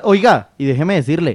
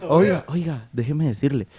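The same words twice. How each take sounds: First: Insistent, animated interjection; raised voice. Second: Soft, subdued request for the floor; toned down, gentle. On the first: Panelist demanding to be allowed to speak, voice raised. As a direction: butt in insistently to get the floor. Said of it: "¿Y por qué grita? Cálmese". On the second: Panelist told to stop shouting asks softly to speak. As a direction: ask softly after being told to calm down. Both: Real, not acted.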